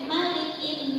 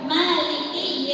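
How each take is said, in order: First: The first vowel is kept short. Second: The first vowel is held long. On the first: It means king. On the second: It means owner.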